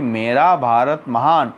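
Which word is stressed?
मेरा. The stress falls on the word मेरा. "बोला मेरा ऊपर भारा"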